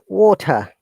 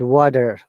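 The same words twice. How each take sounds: First: A strong T and no final R sound. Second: A D-like flapped T and a sounded R. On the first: "This is standard British accent" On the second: "an American accent"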